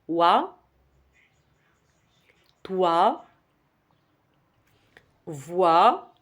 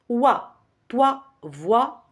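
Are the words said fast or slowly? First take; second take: slowly; fast. First: The words are said slowly, with gaps between them. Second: The words are said quickly, one right after another. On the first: "Je vais ralentir un petit peu" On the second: "J'ai fait vite"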